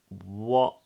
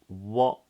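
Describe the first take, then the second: First: The final T is stopped in the throat. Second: The same.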